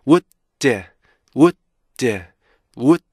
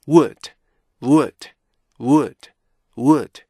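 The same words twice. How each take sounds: First: Would broken into wu, long pause, d. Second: Would joined in one short firm beat. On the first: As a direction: hold the stop in would, then release d. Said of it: "다시 해볼까요". (멈췄다 터뜨리는 would) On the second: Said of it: "이렇게 발음하셔야 돼요". (짧게 이어 읽은 would) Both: Shown as a demonstration.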